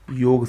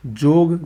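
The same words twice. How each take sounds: First: योग opening with a y glide; correct pronunciation. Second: जोग opening with a j sound; hard j to start जोग; wrong pronunciation. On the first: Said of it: "सही है". (योग में "य" की ध्वनि) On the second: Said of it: "गलत है". (जोग में "ज" की ध्वनि) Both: Shown as a demonstration.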